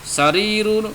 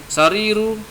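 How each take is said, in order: Both takes have the same delivery.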